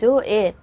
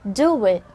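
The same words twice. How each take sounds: First: The two words join with no w sound. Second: A slight w sound links the two words. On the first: The speaker calls it wrong. "instead of saying do it" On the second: The speaker calls it right. "Lalagyan natin ng W sound konti"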